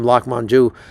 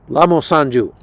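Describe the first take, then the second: First: The name sounds like the pizza name. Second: The name does not sound like the pizza. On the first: The speaker calls it wrong. "I mispronounced his name" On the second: The speaker calls it right. "It's Lamo, La, Lamo Sanju"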